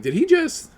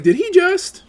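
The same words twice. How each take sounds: First: Squeaky high shocked question; mock shocked gasp. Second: Squeaky high and louder shocked question; mock shocked gasp, louder. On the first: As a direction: gasp it like a scandalised fan. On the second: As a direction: gasp it even more scandalised. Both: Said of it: "They're like".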